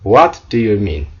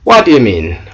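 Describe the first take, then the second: First: Each word is said fully and separately. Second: The words are run together and shortened.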